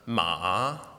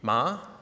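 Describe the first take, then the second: First: The pitch dips low, then rises again. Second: The pitch rises from middle to high. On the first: "The third tone is a falling rising tone" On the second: "The second tone is a rising tone"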